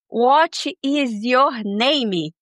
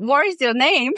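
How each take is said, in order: First: Each word is said slowly and separately. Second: The words are run together with a rolled tongue.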